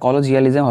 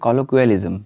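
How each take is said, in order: First: The middle syllable has a 'j' sound. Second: The middle syllable has a 'kw' sound. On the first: The speaker calls it wrong. "এটা কলোজিয়ালিজম হবে না" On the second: The speaker calls it right. "এটা হবে কলোকুয়ালিজম"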